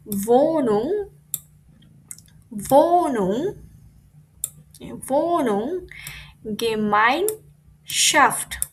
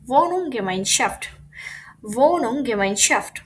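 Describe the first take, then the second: First: "Wohnung" stretched and rising, "Gemeinschaft" in slow separate pieces; breaking the word up. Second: "Wohnung" and "Gemeinschaft" linked into one slow compound; pieces joined up. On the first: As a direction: sound out "Gemeinschaft" syllable by syllable, very slowly. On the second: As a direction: run "Wohnung" into "Gemeinschaft" as one careful word. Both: Shown as a demonstration. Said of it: "কিভাবে ভেঙে ভেঙে পড়বো".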